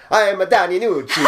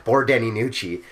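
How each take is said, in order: First: Hammed-up Italian accent, much higher and louder; over-the-top mock Italian accent. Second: Said in the usual way. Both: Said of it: "I can't do an Irish accent".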